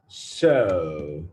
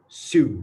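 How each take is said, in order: First: The vowel sounds like the one in 'so'. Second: The vowel sounds like the one in 'sue'. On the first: The speaker calls it right. "So, so" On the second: The speaker calls it wrong. "not sue, sue. Don't say it like sue"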